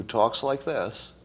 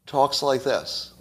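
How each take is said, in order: First: Said in the usual way. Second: "talks like this" said slowly, each word weighted; slow emphatic repeat. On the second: Shown as a demonstration. To his viewers, stressing how the candidate speaks, slow emphatic repeat. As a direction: lean on "talks like this" to drive it home.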